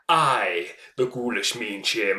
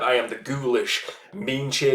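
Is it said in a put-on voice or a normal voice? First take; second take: put-on voice; normal voice. First: It is said in a put-on spooky voice. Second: It is said in his normal voice.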